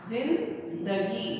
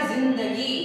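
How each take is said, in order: First: जिंदगी slowly split, zin, dagi; syllable-by-syllable z demo. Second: जिंदगी whole, opening on z; nukta z pronunciation. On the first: Teacher breaking down the word, जिंदगी slowly with z. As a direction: break जिंदगी in two, opening on z. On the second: Teacher giving an example, जिंदगी begun with z. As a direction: say जिंदगी as zindagi. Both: Shown as a demonstration. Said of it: "आवाज आ रही है".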